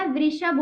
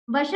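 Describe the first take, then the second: First: वृषभ said as vri-shabh; वृषभ with r in the first syllable; correct pronunciation. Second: वृषभ said as va-shabh, without ri; वृषभ missing its ri vowel; wrong pronunciation. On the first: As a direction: sound the ri after v in वृषभ. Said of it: "होता है". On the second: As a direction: drop the r from वृषभ, giving va-shabh. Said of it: "नहीं होता". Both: Shown as a demonstration.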